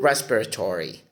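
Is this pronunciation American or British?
American. It is said with an American pronunciation. "In Merriam-Webster dictionary, you hear"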